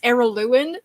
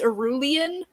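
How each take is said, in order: First: The name is pronounced as Araluen. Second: The name is pronounced as Arulian. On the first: The speaker calls it right. "but it's Araluen" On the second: The speaker calls it wrong. "I always pronounced it as Arulian"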